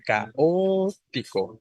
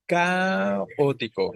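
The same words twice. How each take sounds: First: "caótico" como ca-Ó-tico, la O alargada; acento en la O. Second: "caótico" como CÁ-otico, primera sílaba alargada; acento cambiado a CA. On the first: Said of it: "Es diferente decir". ("caótico" lento, con la tónica en O) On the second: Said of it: "cambien de lugar la sílaba tónica". ("caótico" lento, con la tónica en CA) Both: Shown as a demonstration.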